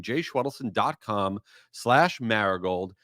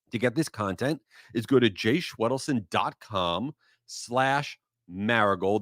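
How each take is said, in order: First: Slower, spelling the web address out carefully for listeners; slow, clear spelling out. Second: Said in the usual way. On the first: Shown as a demonstration. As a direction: dictate the address slowly, word by word. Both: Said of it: "That's my full name".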